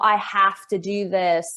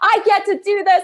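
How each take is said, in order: First: It sounds gloomy and dragging, like Eeyore. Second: It sounds bright and excited.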